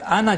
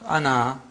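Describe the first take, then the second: First: The final vowel is short. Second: The final vowel is long. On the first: The word runs on into the next word. "here you don't pronounce" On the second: The speaker pauses on the word. "with the alif pronounced"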